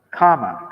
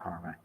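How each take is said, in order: First: "kama" with no r sound, louder and falling; corrected pronunciation. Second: "karma" with an r before the m; mistaken pronunciation. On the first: Speaker correcting his own misreading, "kama" pronounced without r. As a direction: say "kama" firmly, long first vowel without an r. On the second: Speaker showing the misread word, "karma" said with an r. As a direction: say "karma" with the r sounded. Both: Shown as a demonstration. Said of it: "kama, not karma".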